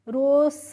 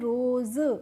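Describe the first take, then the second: First: The s is pronounced as an s sound. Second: The s is pronounced as a z sound. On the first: The speaker calls it wrong. "रोस नहीं पढ़ना है" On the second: The speaker calls it right. "हमें इसको रोज क्या पढ़ना है"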